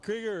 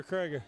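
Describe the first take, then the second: First: Krieger with a long ee, KREE-ger; pronunciation KREE-ger. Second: Krieger with an eye vowel, KRY-ger; pronunciation KRY-ger. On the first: Announcer queries the name Krieger, pronounced KREE-ger. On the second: Announcer queries the name Krieger, pronounced KRY-ger. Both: Shown as a demonstration. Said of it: "pronounces his name Krieger. Is it".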